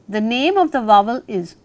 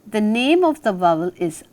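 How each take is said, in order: Both takes have the same delivery.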